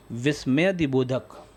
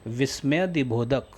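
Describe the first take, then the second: No difference in how they are said.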